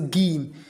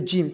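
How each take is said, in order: First: The g is hard, as in go. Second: The g is soft, like a j. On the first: The speaker calls it wrong. "not say gym" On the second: The speaker calls it right. "we say gym"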